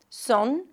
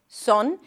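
First: The vowel is rounded, close to oh. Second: The same.

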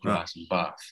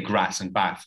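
First: It is said in a southern English accent. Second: It is said in a northern English accent. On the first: The speaker would have taken on the local accent. "not grass and bath" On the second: The speaker keeps a regional heritage. "I still say grass and bath"

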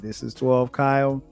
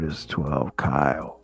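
First: It is said in a plain, neutral way. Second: It is said in a laid-back, cool way. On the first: A standard, impersonal message. "it didn't sound like that" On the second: A personalized, stylish message. "You know how it sounded. It was more like"

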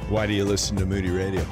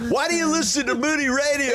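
First: The question is said in a flat, solemn tone. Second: The question is said in a bright, upbeat tone. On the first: The speaker calls it wrong. "I try to go matter of fact, it sounds sad" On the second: The speaker calls it right. "There we go. There's Carl"

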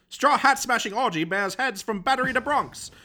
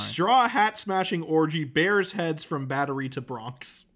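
First: It is read in an old-fashioned transatlantic accent. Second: It is read in an ordinary everyday accent.

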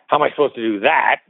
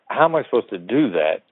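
First: It sounds accusing, implying the listener is an idiot. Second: It sounds like a sincere, curious question.

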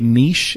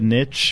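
First: It is said in the Canadian way. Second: It is said in the American way. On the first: "so I say niche" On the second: "instead of niche"

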